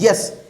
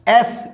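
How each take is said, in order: First: The word starts with a 'y' sound. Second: The word starts directly with a vowel. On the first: The speaker calls it right. "जो उच्चारण होगा वो यस ये होगा" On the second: The speaker calls it wrong. "एस ये नहीं होगा। अगर हम एस बोल रहे हैं तो इसका मतलब हम वाई को इग्नोर कर दे रहे हैं"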